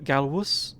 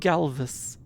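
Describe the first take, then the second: First: The middle consonant is said as a W sound. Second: The middle consonant is said as a V sound. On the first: It follows the Latin way of reading the name. The speaker calls it wrong. "V's are pronounced as W's typically in Latin" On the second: It follows the English way of reading the name. The speaker calls it right. "the voice actor says it's going to be"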